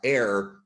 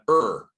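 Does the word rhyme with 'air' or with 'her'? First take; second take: air; her. First: The vowel rhymes with 'air'. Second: The vowel rhymes with 'her'. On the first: The speaker calls it wrong. "is not uh, air" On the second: The speaker calls it right. "but er"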